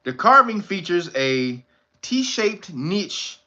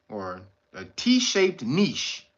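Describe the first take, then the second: First: "niche" said as "nitch", slow; slow read, "niche" rhyming with "itch"; first try. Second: "niche" said as "neesh", slower and softer; slow correction, "niche" like "neesh"; corrected try. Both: Shown as a demonstration.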